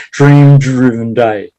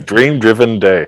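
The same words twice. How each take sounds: First: "Dream driven day" slow and deliberate, every word clear; careful. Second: "Dream driven day" said slowly, each word separate; careful. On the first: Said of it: "I can't even say it". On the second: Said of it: "I can't even say that". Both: Shown as a demonstration.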